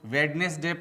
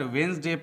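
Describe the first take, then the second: First: The word is said in three syllables. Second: The word is said in two syllables. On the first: The speaker calls it wrong. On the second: The speaker calls it right.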